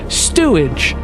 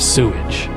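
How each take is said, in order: First: It has a t sound after the s. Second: It has no t sound after the s. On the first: The speaker calls it wrong. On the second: The speaker calls it right.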